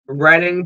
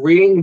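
First: "Reading" said with a short e, RED-ing; alternative pronunciation. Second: "Reading" said with a long ee, REED-ing; alternative pronunciation. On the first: Host trying a town name for listeners, "Reading" as RED-ing. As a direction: say "Reading" to rhyme with wedding. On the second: Host offering another town-name guess, "Reading" as REED-ing. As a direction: say "Reading" like reading a book. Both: Shown as a demonstration. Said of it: "Tell me if I'm saying it wrong".

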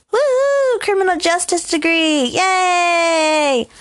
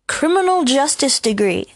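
First: High-pitched celebratory whoop; mock cheer. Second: Said in the usual way. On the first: Mock cheering for own degree.

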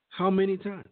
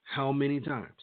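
First: Higher and louder, real anger; exasperated outcry. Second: Said in the usual way. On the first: Real, not acted. Vlogger demanding answers about police killings, in a higher, louder outcry. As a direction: cry it out, fed up.

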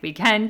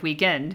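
First: "Weekend" lifted higher with an inflection; inflected ending. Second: Said in the usual way. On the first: Shown as a demonstration. Mother demonstrating her picked-up habit, "Weekend" inflected upward. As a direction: pitch "Weekend" up, British-influenced. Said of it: "inflect a little bit at the end". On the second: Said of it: "instead of".

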